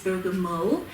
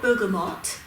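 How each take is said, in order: First: The word ends without any T sound. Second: The word ends with a pronounced T sound. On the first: The speaker calls it right. "the correct say, saying is bergamo" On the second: The speaker calls it wrong. "It's spelled bergamot"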